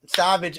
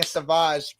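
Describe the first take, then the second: First: Said in the usual way. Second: "Savage" said French-style as sa-VAHZH; misread SAVAGE. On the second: Shown as a demonstration. Host confessing the misreading to co-hosts, "Savage" as sa-VAHZH. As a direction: misread "Savage" as sauvage, stress on the second syllable. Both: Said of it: "I honestly was reading a Savage".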